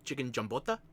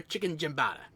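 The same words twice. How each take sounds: First: "giambota" with a round Italian "bo" in the middle, a quizzical lift; the waiter corrects it, "giambota", like a question; "giambota" pronounced properly, Italian style; waiter's correction. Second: Giambata said with a flat American "bata" ending; the wrong take, "giambata" rhyming with "sonata"; "giambata" said the American way, "bah-tah" at the end; mispronounced dish. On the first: Retold or imitated. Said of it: "he's like". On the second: Shown as a demonstration.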